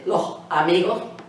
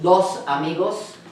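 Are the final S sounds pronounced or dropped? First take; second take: dropped; pronounced. First: It has an Andalusian accent with final S dropped. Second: It has standard Spanish pronunciation with final S sounds.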